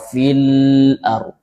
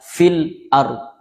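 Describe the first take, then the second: First: The l sound flows out too freely. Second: The l sound is cut off too abruptly. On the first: "Tidak juga terlalu raqawah" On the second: "tidak juga terlalu syiddah"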